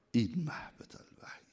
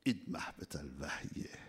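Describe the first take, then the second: First: Hushed whispered repeat. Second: Said in the usual way. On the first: Acted. Preacher whispering the phrase to the congregation. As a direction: breathe it as a secret.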